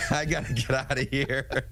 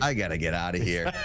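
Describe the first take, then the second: First: Laughing through the words, a bit higher; cracking up at the co-host's accent; amused laugh breaking through. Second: Said in the usual way. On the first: Real, not acted.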